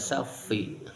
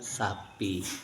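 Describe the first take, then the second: First: The middle consonant is an f sound. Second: The middle consonant is a p sound. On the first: The speaker calls it wrong. "tidak safi" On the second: The speaker calls it right. "mengatakan sapi"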